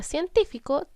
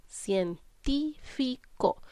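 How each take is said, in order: First: Said in the usual way. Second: "científico" very slowly, cien... tí... fi... co; syllable by syllable. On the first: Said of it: "es separar las palabras en sílabas". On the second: Shown as a demonstration. Teacher shows four syllables to children, syllable by syllable. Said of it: "tiene cuatro sílabas".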